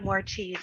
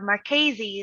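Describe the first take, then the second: First: The first syllable sounds like 'more'. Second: The first syllable sounds like 'mar'. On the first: "I'll accept more cheese" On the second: "is the proper way to say my name"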